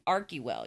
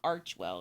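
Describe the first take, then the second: First: The first syllable uses a 'k' sound. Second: The first syllable uses a 'ch' sound. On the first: The speaker calls it right. "if they're pronouncing it with the Greek pronunciation" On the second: The speaker calls it wrong. "It's not with the ch sound. It's not Archwell"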